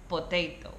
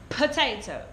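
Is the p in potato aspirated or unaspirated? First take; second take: unaspirated; aspirated. First: The p is said with no puff of air. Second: The p is said with a strong puff of air. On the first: The speaker calls it wrong. "There's no explosion. There's no air coming out of the mouth" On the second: The speaker calls it right. "releasing air through my mouth"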